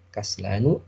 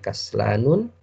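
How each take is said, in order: First: The word ends on a plain u vowel. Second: The word ends with an added n sound. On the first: The speaker calls it right. "cukup dhammah saja" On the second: The speaker calls it wrong. "Tidak boleh dibaca kaslanun"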